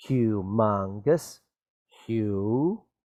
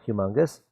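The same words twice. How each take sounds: First: "Humongous" stretched slowly, syllable by syllable; sounded out. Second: Said in the usual way. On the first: Shown as a demonstration. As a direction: draw out each part of "Humongous" for a learner. Sounding out word for spelling.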